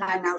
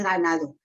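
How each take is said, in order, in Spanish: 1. El sonido d entre vocales se elimina. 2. El sonido d entre vocales se pronuncia. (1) "no se dice ganado" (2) "se dice ganado"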